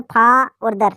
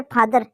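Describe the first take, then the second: First: फा and दर said as two separate parts; split into syllables. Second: Said in the usual way. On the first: Shown as a demonstration. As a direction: break फादर into फा, then दर. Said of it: "दो syllable हो गए". (फा और दर को अलग-अलग बोलते हुए) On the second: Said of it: "दूसरा दो साइलेबल".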